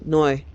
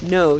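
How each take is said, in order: First: The vowel glides toward an OY sound. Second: The vowel is a plain O sound. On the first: "every O sounds like O Y" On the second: "instead of saying no"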